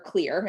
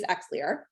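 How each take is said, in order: First: The name begins with a 'k' sound. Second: The name begins with an 'eks' sound. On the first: This is the proper way to say it. The speaker calls it right. "proper way to say it" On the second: This is how many people say it. The speaker calls it wrong. "a lot of people say Xlear"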